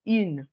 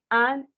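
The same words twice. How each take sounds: First: IN as French "une" with released N; denasalized feminine. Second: AN as one French nasal vowel; nasalized masculine. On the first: Teacher explaining the contrast to students, denasalized IN. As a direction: round the u in IN, sound the N. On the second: Teacher explaining why she says it so, nasalized AN. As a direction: say AN like "un", through the nose. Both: Shown as a demonstration. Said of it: "pourquoi je dis".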